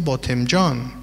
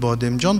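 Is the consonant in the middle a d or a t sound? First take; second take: t sound; d sound. First: The middle consonant is a t sound. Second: The middle consonant is a d sound. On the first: "هر دو در ادب پارسی درست است" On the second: "هر دو در ادب پارسی درست است"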